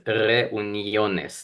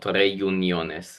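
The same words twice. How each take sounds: First: The u sounds like a plain 'oo'. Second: The u sounds like the word 'you'. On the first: The speaker calls it right. "You pronounce it as reuniones" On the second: The speaker calls it wrong. "not reuniones"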